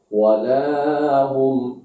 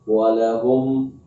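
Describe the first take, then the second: First: The vowel after the l is drawn out long. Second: The vowel after the l is short. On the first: The speaker calls it wrong. "dipanjangkan huruf lamnya" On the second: The speaker calls it right. "lamnya pendek"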